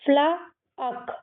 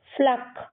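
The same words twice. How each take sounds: First: "फ्लाअक" drawn out, fla, then k; sounded out slowly. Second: "फ्लक" joined as one falling syllable; blended pronunciation. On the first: Teacher decoding the first part, "फ्लाअक" slowly stretched out. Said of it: "इसको फ्लक". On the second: Teacher blending the sounds for kids, "फ्लक" as one syllable. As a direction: say "फ्लक" whole, not stretched. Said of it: "क्या हो जाएगा". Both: Shown as a demonstration.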